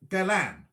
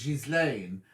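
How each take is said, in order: First: Galan, with hard G and no S; silent S. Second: Ghislaine with the S clearly sounded. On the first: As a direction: say Ghislaine as Galan, dropping the S. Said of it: "Should I be saying Galan". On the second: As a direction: say Ghislaine as "Jiz-lane", S pronounced. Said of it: "is the S silent?". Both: Shown as a demonstration.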